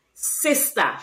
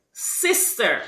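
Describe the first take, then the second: First: "Sister" ending in an open A; Creolese pronunciation. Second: Said in the usual way. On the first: Shown as a demonstration. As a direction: say "Sister" as sis-tah. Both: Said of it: "replacing the E R with".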